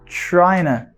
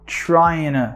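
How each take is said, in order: First: The t is dropped, blending into the n. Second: The same.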